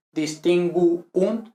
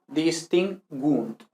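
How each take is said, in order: First: "distinguunt" as dis-tin-GU-unt; two separate U's in "distinguunt"; U as separate syllable. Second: "distingunt" slowly as dis-TIN-gwunt; three beats, the ending of "distingunt" as one; GUUNT one syllable. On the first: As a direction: break "distinguunt" between the U's. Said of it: "no dos sílabas separadas". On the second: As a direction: merge the U's in "distingunt". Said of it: "forma una misma sílaba". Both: Shown as a demonstration.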